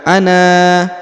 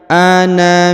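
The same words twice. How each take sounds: First: The final vowel is held for two beats. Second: The final vowel is cut short to one beat. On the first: The speaker calls it wrong. "bukan ana" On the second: The speaker calls it right. "tidak dibaca dua harokat tapi dibaca satu harokat"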